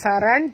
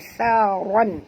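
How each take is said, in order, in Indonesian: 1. Bunyi r-nya tipis dan ringan. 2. Bunyi r-nya tebal dan penuh. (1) "bukan saran" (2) "ron tebal"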